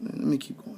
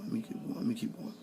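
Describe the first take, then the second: First: Said in the usual way. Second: Whispered to himself. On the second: Shown as a demonstration. Muttering to himself to move on, whispered. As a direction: let me keep going, breathed out. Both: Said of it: "repeats, fading to whisper".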